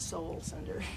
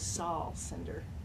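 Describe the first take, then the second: First: The first name sounds like the word soul. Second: The first name sounds like the start of Solomon. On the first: The speaker calls it wrong. "not Soul Cinder" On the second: The speaker calls it right. "his name is Saul Cinder"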